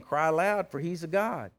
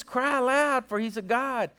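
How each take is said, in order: First: Said in the usual way. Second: High-pitched, needling jeer; acted mockery, pitched well up; mocking taunt. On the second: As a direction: taunt them like you're talking trash. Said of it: "he's over there just mocking them".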